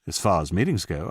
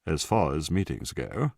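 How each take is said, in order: First: Said in the usual way. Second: Self-mocking BBC English; exaggerated BBC announcer's accent. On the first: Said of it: "then mocked himself in a B B C accent". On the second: A narrator's reading. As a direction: put on a plummy BBC accent to mock yourself. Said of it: "mocked himself in a B B C accent".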